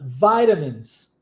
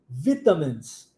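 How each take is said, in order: First: American accent, the t sounds like r. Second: British accent, the t is a clear t. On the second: "britânico"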